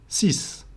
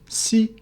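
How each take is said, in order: First: The word ends with an S sound. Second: The word ends with no final consonant sound. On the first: "The X at the end is pronounced S" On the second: "the X at the end becomes silent"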